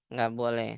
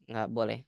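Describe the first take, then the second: The two takes are said the same way.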